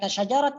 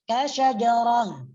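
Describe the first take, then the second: First: The word ends with a t sound. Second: The word ends with an h sound. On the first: The speaker calls it wrong. "kasyajaratin dibaca kasyajarat ke" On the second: The speaker calls it right. "kalau dibaca waqaf"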